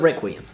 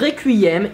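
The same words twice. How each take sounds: First: The word is pronounced the English way. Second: The word is pronounced the French way. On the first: "is a requiem" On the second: "un requiem"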